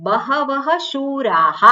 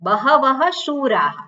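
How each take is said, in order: The two takes are said the same way.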